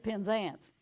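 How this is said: It is said with a Southern US pronunciation. The speaker calls it wrong. "I was saying it in the southern way"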